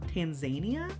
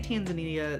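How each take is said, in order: First: It is said the way locals say it. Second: It is said the usual American way. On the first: This is how the people there say it. "They say Tanzania?" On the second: This is how people here say it. "We say Tanzania"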